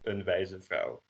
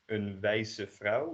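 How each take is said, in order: First: The middle consonant is a voiced z sound. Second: The middle consonant is a voiceless s sound. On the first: The speaker calls it right. "We turn that S into a Z" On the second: The speaker calls it wrong. "you wouldn't say"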